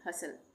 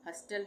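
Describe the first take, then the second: First: The t sound is silent. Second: The t sound is pronounced. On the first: The speaker calls it right. "इसमें टी का उच्चारण नहीं होगा" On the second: The speaker calls it wrong. "हस्टल नहीं बोलेंगे"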